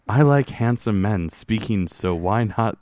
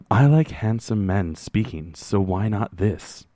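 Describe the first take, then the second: First: It is read in his normal, giggly voice. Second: It is read in a calm NPR announcer voice.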